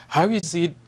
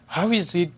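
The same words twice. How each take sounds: The two takes are said the same way.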